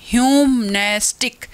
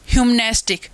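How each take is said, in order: First: "ह्यूमनेस्टिक" in three beats, ह्यूम-नेस-टिक; teacher counting out three syllables in "ह्यूमनेस्टिक"; split into syllables. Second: Said in the usual way. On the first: Shown as a demonstration. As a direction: sound out each part of "ह्यूमनेस्टिक" separately. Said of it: "तीन हो गए हमारे इसमें". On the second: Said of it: "देखिए example".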